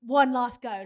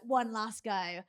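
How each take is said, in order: First: Louder coach shout of encouragement; coach urging. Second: Slow, drawn-out coach repeat; coach urging. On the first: Coach urging athlete, louder pushing shout. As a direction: push him like a coach at the Olympics. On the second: Coach repeating to athlete, slowed and pressing. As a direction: drag it out, pressing the point. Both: Retold or imitated. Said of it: "his coach being like".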